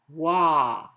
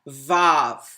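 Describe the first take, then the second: First: It begins with a W sound. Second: It begins with a V sound. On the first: It sounds like breath giving life. The speaker calls it right. "If you look at the pronunciation, right? They it's Wah" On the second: It constricts and strangles the vowel. The speaker calls it wrong.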